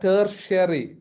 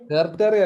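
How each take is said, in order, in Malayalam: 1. നടുവിലെ വ്യഞ്ജനം sh ശബ്ദമാണ്. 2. നടുവിലെ വ്യഞ്ജനം സാധാരണ t ശബ്ദമാണ്. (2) "ടെർട്ടറി അല്ല"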